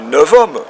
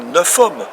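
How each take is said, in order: First: The final consonant of neuf sounds like V. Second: The final consonant of neuf sounds like F. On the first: The speaker calls it right. "Donc le F se prononce V" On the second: The speaker calls it wrong. "on ne dit pas neuf hommes"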